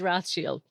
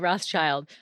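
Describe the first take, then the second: First: The name is said the original, non-anglicized way. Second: The name is said the anglicized American way. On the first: This is the technically correct form. "technically it is Rothschild" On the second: This is how North Americans usually say it. "all of us Americans, or I guess Canadians, um, actually say Rothschild"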